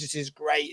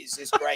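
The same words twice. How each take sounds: First: Said in the usual way. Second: Much higher, rising "great"; mock Des gushing. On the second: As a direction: squeak the praise up high like a delighted producer. Des mimed giving thumbs up.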